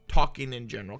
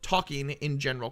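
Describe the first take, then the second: First: The words run together and blend. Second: Each word is said clearly and separately. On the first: The speaker calls it wrong. "I said talking in talking in talking in general" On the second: The speaker calls it right. "instead of saying"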